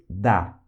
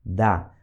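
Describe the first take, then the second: First: Da said short, pitched lower; Russian da. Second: Da repeated short and lower; Russian da repeated. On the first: Teacher models da meaning yes. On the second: Teacher repeats Da for students. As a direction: echo Da for learners. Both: Shown as a demonstration. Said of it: "um exemplo em russo".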